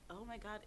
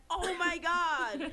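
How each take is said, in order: First: Put off. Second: High, slow, drawn-out fan gush. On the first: Retelling first time hearing the rapper, put off. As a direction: mutter it with mild retold distaste. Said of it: "The first time I heard him". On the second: Now the biggest fan of the rapper, gushing. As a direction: stretch it out in smitten delight. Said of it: "But now it's like". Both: Retold or imitated.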